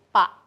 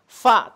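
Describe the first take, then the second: First: It starts with a p sound. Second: It starts with an f sound. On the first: The speaker calls it wrong. "tapi pa" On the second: The speaker calls it right. "bukan fa"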